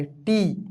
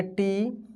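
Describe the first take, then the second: First: टी as the long ī, pitch falling; टी, demonstrating the long-ī syllable; long i demo. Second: टी as the short i, pitch rising at the end; टी, demonstrating the short-i syllable; short i demo. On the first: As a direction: say टी with a falling tune. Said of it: "बड़ी की मात्रा लगा दिए". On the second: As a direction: say टी with a lifting tune. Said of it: "छोटी की मात्रा लगा दिए". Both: Shown as a demonstration.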